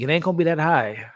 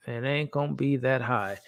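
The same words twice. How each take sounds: First: Said in the usual way. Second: Softer repeat. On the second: Real, not acted. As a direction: let the repeat sink quietly, like a muttered aside. Repeats his sneak peek score.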